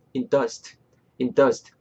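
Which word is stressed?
dust. The stress falls on the word dust. The speaker calls it right. "in의 강세 좀 빼시고"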